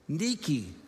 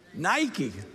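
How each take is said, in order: First: It is pronounced the Greek way. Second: It is pronounced the English way. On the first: "the Greek word" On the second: "We call it Nike, which is fine to mispronounce a Greek word"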